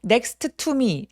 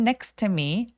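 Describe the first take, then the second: First: The T sound is pronounced twice, separately. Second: The T sound is pronounced only once, linked. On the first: The speaker calls it wrong. "아니죠?" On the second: The speaker calls it right. "한 번만 발음합니다"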